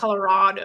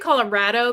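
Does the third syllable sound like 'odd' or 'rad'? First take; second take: odd; rad. First: The third syllable sounds like 'odd'. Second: The third syllable sounds like 'rad'. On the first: The speaker calls it wrong. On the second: The speaker calls it right. "I say Colorado because we're super rad"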